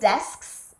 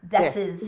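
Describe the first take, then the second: First: The word ends with the full consonant cluster. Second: The consonant cluster is reduced to a simpler ending. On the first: "you're not saying desks" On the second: "you're saying desses"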